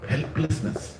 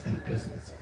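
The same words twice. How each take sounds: First: Said in the usual way. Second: Helplessness breathed as a bare whisper. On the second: Shown as a demonstration. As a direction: let Helplessness fall away into a whisper. Word repeated, second whispered.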